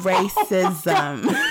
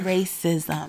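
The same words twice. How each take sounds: First: It is said slowly and drawn out. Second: It is said at normal speed.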